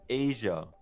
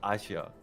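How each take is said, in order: First: It is said the usual English way. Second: It is said the way other languages do. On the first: The speaker calls it wrong. "we say in English Asia" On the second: The speaker calls it right. "every other country says Asia"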